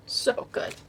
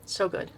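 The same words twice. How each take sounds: First: Breathy whispered echo of so good; soft awed whisper. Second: Said in the usual way. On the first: Real, not acted. Repeats praise in whisper.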